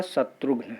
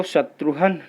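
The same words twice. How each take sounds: First: शत्रुघ्न with a clear g before the n, ending -ghna; शत्रुघ्न as the correct form, ending in -ghna. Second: शत्रुघ्न as the mistaken form, its ending a breathy -han; wrong form. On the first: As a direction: say शत्रुघ्न carefully and sound the ghn cluster. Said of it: "शुद्ध होता है शत्रुघ्न". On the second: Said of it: "तो शत्रुघ्न नहीं होता है". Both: Shown as a demonstration.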